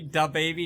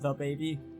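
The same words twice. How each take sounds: First: The word 'the' starts with a D sound. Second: The word 'the' starts with a TH sound. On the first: It is said this way to be funny. "it's funnier to say" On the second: It is the normal way of saying it. "instead of"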